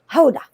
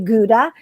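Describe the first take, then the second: First: It begins with a breathy H-like sound. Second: It begins with a hard G sound. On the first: The speaker calls it right. "it's actually Hoda" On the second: The speaker calls it wrong. "we say Gouda"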